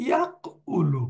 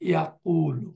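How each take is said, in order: First: ইয়াকউলু split as yak-oo-loo with the vowel set apart; ইয়াকউলু said slowly, syllable by syllable; original form. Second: ইয়াকুলু said smoothly as ya-qoo-loo, no break before the u; ইয়াকুলু with the vowels run together, ya-koo-loo; actual pronunciation. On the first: Teacher recalling the old form, ইয়াকউলু carefully split. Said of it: "ছিল". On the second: Teacher showing the changed form, ইয়াকুলু said smoothly. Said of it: "তার উচ্চারণটা হবে". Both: Shown as a demonstration.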